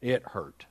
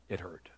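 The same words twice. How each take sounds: First: Said in the usual way. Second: Very soft, lower, near whisper; hushed repeat. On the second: Real, not acted. Preacher recalls leaving his grandson, hushed and heavy. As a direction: let it sink almost to a whisper.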